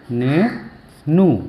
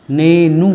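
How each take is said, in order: First: Nenu very slowly, split into ने and नू with a long gap; syllable by syllable. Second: Said in the usual way. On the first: Shown as a demonstration. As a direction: teach Nenu in two drawn-out, separate pieces. वही शब्द तोड़कर सिखाना. (नेनू को तोड़कर, बहुत धीरे बोलें)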